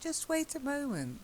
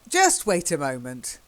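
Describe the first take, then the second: First: The voice is soft and reasonable. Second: The voice is hard and argumentative. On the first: The speaker is trying to be reasonable. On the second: The speaker is being argumentative.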